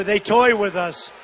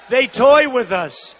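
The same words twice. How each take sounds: First: Said in the usual way. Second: Slower repeat with toy leaned on; slower, weightier "They toy with us"; stress on toy. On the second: Real, not acted. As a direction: hammer the word toy. Repeats line to drive it home.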